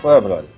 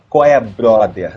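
First: The words are run together loosely and casually. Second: The words are articulated cleanly and carefully. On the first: It sounds natural and real. The speaker calls it right. "Deixa sujar. ... Deixa a dicção falhar pra ficar mais natural" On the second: It sounds rehearsed and artificial. The speaker calls it wrong. "Não é qual é, brother"

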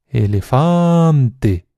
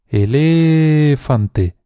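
First: The stress is on the third syllable. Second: The stress is on the second syllable. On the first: "Cualquier nativo te dirá que la tercera opción" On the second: "alargando mucho cada una de las sílabas"

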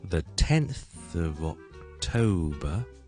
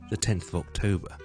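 First: The phrase is said slowly. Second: The phrase is said fast. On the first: "所以慢嘅，听一次。" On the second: "快嘅咧"

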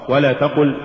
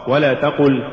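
No difference in how they are said.

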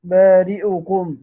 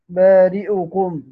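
First: The hamza carries a full i vowel. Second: The hamza carries a full i vowel.

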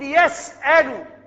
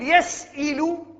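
First: The middle vowel is an open 'a'. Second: The middle vowel is not an open 'a'. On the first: The speaker calls it right. "نقول يسأل" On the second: The speaker calls it wrong. "لا نقول يسئل"

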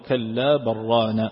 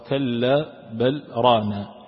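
First: The l merges into the following r sound. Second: The l is clear, with a brief stop after it. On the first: This is the majority reading. "فالجمهور يقرأون كلا بران" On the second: This is the reading of one particular reciter. "وأما العاصم فإنه يقرأها"

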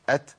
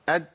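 First: Audible breath flows out after the t sound. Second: The breath is cut, so it sounds like d. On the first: The speaker calls it right. "لو انا مشيت النفس" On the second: The speaker calls it wrong. "بس بقطع النفس"

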